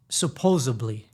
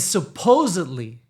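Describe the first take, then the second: First: Slow "supposedly" said as "supposably"; mispronounced. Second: Slow, louder "supposedly" with a clear D; corrected pronunciation. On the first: Naming the word that bothers her, mispronounced. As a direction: put a B for the D in "supposedly". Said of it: "It's not supposedly". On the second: Correcting Miami speakers, D clearly sounded. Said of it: "It's supposedly". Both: Shown as a demonstration.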